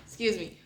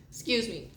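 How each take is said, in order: Both takes have the same delivery.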